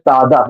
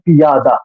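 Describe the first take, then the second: First: The word has two syllables, pya-da. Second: The word has three syllables, pi-ya-da. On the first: This is how it fits the poetic meter. "लेकिन ये है पादा" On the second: This is the usual way people read it. "पियादा हम लोग पढ़ते हैं पियादा"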